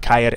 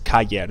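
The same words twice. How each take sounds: First: The vowels merge into one syllable. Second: The vowels are split into two syllables. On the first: The speaker calls it wrong. "It's not caer" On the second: The speaker calls it right. "it's caer. There's two syllables to it"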